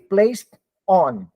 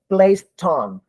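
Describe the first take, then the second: First: The two words are cut apart with a break. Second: The final sound links smoothly into the next word. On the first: The speaker calls it wrong. "Do not cut. Do not say placed on" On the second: The speaker calls it right. "What you do is you blend them. You say place ton"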